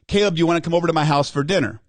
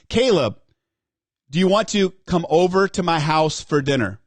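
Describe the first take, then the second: First: The command part is said with no force. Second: The command part is said with force.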